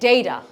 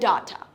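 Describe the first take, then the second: First: It is said with an American accent. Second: It is said with a British accent. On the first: "Americans will say data" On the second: "ব্রিটিশরা বলে data"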